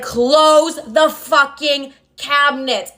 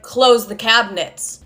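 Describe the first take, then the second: First: Very slow, word-by-word order in a put-on voice; imitated angry father. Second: Slow, restrained command in dad's role; retold stern order. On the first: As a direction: act out dad at breaking point, stretching each word. Father's final angry order, acted out. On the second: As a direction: give a measured order, not raised. Father's first order, retold.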